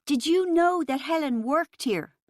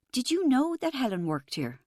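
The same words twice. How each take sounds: First: Louder, higher roared repeat; roaring. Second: Shaky voice. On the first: Rachel roaring her question at Chris over the music, angry roar. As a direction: let the anger out in a roar. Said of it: "I roared". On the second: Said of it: "I asked in a shaky voice". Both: A narrator's reading.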